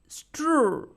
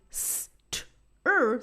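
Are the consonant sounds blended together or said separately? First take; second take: blended; separate. First: The consonants are blended quickly into one cluster. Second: The consonants are split with an added vowel sound. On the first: The speaker calls it right. "blend the consonants and say the consonant sounds faster" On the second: The speaker calls it wrong. "instead of saying"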